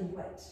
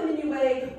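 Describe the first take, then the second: First: "minuet" said the English way, ending in a clear -et; "minuet" all'inglese, con la t finale ben pronunciata; English pronunciation. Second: "minuet" said the French way, mi-nu-AY with no final t; "minuet" alla francese, finale -ay senza la t; French pronunciation. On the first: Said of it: "We dance the minuet". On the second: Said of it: "It is not the minuet". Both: Shown as a demonstration.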